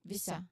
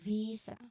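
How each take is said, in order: First: The first vowel is a short sound. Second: The first vowel is a long ee sound. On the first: The speaker calls it wrong. "not visa" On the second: The speaker calls it right. "there's long E sound in V. So visa"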